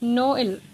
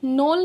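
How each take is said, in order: First: The two vowels are said as separate syllables. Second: The two vowels merge into one sound. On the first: The speaker calls it right. "हमें इसको स्प्लिट करके बोलना होगा" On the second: The speaker calls it wrong. "एक साथ नोल नहीं बोल सकते, ये इसकी गलत प्रोनाउंसिएशन होगी"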